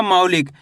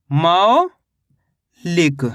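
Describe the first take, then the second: First: Said in the usual way. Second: मौलिक very slowly, long rising मौ, long pause, lower लिक; syllable by syllable. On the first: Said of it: "शब्द का उच्चारण सही से सुनना है". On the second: Shown as a demonstration. Teacher showing what the syllables make, मौलिक drawn out in two parts. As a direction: break मौलिक into a stretched मौ and a separate लिक. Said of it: "तो मिलके बन गया ये".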